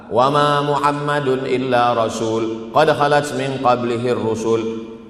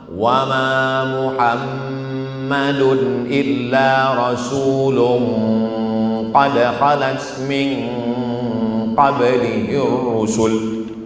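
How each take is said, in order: First: The nasal hum before qad is cut short. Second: The nasal hum before qad is held long. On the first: The speaker calls it wrong. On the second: The speaker calls it right.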